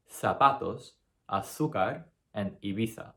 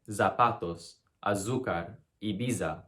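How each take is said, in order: First: Zapatos and azúcar with a clean s, Ibiza with a th; the right unbuzzed z in zapatos; Spanish s and th. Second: Zapatos, azúcar, Ibiza with a buzzing English z; the wrong buzzing z in zapatos. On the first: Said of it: "You're gonna say". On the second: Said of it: "you're not gonna say". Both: Shown as a demonstration.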